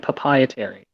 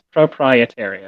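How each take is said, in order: First: The R sounds in the word are slurred or dropped. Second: The R sounds in the word are clearly pronounced. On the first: The speaker calls it wrong. "stop saying" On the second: The speaker calls it right. "you need to pronounce yourself correctly. Okay, like it's"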